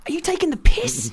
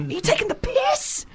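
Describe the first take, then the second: First: High, indignant "taking" pushed up with a falling end; outraged disbelief. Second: Mock incredulous squeal; squeaky disbelief. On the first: Retold or imitated. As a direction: caught off guard, voice jumping high. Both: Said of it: "you're just like".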